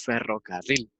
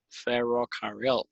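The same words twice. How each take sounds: First: The R is trilled, with the tongue vibrating. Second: The R is soft, with the tongue not touching. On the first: Native Spanish speakers say it. The speaker calls it right. "nosotros decimos ferrocarril" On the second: A foreign speaker who cannot roll the R said it. The speaker calls it wrong. "él no podía pronunciar la R y él decía ferrocarril"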